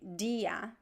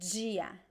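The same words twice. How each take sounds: First: It starts with a plain d sound. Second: It starts with a j-like sound. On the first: This is a regional variant. "in some places, people would say dia" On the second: This is the most common pronunciation. "the most common pronunciation is dia"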